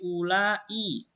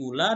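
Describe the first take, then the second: First: The word ends with a long, drawn-out vowel. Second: The word ends short, without a lengthened vowel. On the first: "dibaca panjang" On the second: "dibaca pendek"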